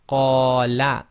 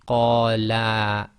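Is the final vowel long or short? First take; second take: short; long. First: The final vowel is held short. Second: The final vowel is held long. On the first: One man said it. "read this first word qala" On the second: Two men said it. "accidentally say qala"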